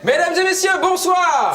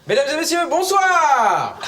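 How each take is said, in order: First: The word bonsoir is said short. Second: The word bonsoir is drawn out long.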